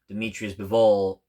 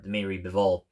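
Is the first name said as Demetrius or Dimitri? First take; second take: Demetrius; Dimitri. First: The first name has three syllables, Demetrius. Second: The first name is said as Dimitri. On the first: The speaker calls it wrong. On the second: The speaker calls it right.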